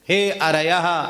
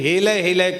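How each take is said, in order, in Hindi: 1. यह शब्द R ध्वनि से बोला जाता है। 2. यह शब्द L ध्वनि से बोला जाता है। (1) "हे अरयः यह कहना चाहिए था" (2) "हेलय हेलय कहने लगे"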